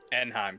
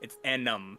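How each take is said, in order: First: The name sounds like Anaheim, three syllables. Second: The name sounds like Anum, two syllables. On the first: The speaker calls it wrong. "I keep pronouncing that wrong" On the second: The speaker calls it right. "it's A N N A M"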